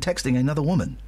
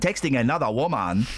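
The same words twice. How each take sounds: First: It is said in a plain, normal reading voice. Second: It is said in a put-on imitation voice.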